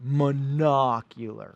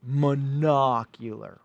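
First: It is said in a Sesame Street voice. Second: The same.

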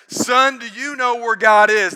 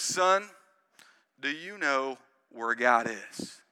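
First: It is said in a big, forceful voice. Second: It is said in a normal, plain voice.

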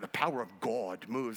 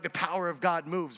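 First: It is said in a dramatic, intense way. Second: It is said in a plain, ordinary way.

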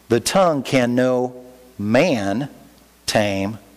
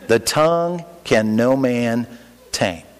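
First: The phrase is spoken slowly and deliberately. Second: The phrase is spoken at a normal, quicker pace. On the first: No human can control the tongue, but God can. The speaker calls it right. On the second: The tongue cannot be controlled, so it is excused. The speaker calls it wrong.

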